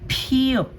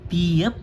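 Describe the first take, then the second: First: The first consonant has a puff of air. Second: The first consonant has no puff of air. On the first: "Magkakaroon ng hangin or yung puff of air pag binigkas" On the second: "from Pio"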